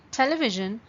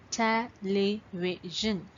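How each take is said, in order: First: Said in the usual way. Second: "Television" slowly, syllable by syllable; four separate beats on "Television", pausing between them; broken into parts. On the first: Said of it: "that means you're blending the word together". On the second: Shown as a demonstration. Teacher showing how to find syllables, "Television" broken into parts. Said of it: "you're breaking the word into parts".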